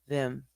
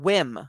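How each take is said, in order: First: The name begins with a soft V sound. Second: The name begins with a W sound. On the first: The speaker calls it right. "it's a soft V" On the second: The speaker calls it wrong. "I was saying whim, like on a whim"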